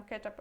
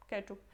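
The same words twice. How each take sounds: First: "ketchup" said as KE-tchap, with an a in the second syllable; "ketchap" pronunciation. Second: "ketchup" said as KE-tchup, with an oo vowel at the end. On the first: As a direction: say "ketchup" ending in -ap. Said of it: "algumas pessoas falam ketchup". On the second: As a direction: say "ketchup" ending in -oop. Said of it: "as outras ketchup". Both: Shown as a demonstration.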